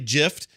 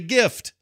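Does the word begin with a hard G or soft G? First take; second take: soft G; hard G. First: The word begins with a soft G sound. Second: The word begins with a hard G sound. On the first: The speaker calls it wrong. "You don't say gift" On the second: The speaker calls it right. "You say gift"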